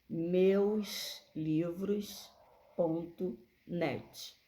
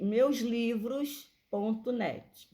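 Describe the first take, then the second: First: It is said slowly and deliberately. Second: It is said at a normal, quicker pace.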